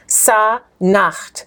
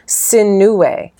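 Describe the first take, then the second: First: The name is said as Sa-Nakht. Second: The name is said as Si-nu-we. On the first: This is the name as read from the text. "When you read the text, what's the man's name?" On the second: This is the name reconstructed from Coptic vocalization. "we've been taught through vocalization that Sa-Nacht would have been pronounced Sinuwe"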